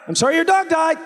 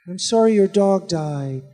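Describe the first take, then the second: First: The voice rises at the end. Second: The voice falls at the end.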